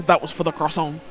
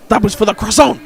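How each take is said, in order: First: Put-on understated Belgian accent at normal volume; toned-down echo of a Belgian accent outburst; slightly aggressive Belgian accent. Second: Loud, higher mock-Belgian outburst; shouted croissant grievance in a Belgian accent; aggressive Belgian accent. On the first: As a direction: quote it lightly in a Belgian accent. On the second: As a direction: confront them in an indignant Belgian accent. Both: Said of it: "slightly aggressive, um, Belgian accent".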